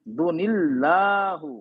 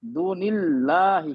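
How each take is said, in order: First: Slow demo of दूनिल्लाहु ending in u; दूनिल्लाहु drawn out with final hu; wrong ending u. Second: Slow demo of दूनिल्लाहि ending in hi; दूनिल्लाहि drawn out, final hi; correct ending i. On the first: Teacher shows students the wrong reading, slowly drawn out. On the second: Teacher gives students the correct reading, slowly drawn out. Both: Shown as a demonstration. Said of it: "दूनिल्लाहु नहीं पढ़ेंगे".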